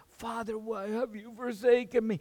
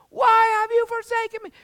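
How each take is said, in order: First: It is said weakly, like a last breath. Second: It is shouted out loud.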